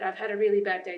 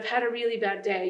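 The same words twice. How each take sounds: First: It is read flatly, without emotion. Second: It is read with strong emotion. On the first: The speaker calls it wrong. "that's not really going to invoke any emotion" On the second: The speaker calls it right. "invoke that emotion in your voice"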